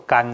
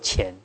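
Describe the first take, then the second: First: The syllable begins with a hard g sound. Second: The syllable begins with a soft ch-like sound. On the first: The speaker calls it right. "这个要念作甘哦" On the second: The speaker calls it wrong. "不能念作钱"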